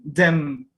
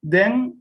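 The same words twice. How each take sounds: First: Them closing on the lips for M. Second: Then ending on an open N sound. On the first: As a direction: say them, lips shut at the end. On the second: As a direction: say Then with the mouth left open. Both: Shown as a demonstration. Teacher contrasting Then and them for students. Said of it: "Solamente la N y la otra M".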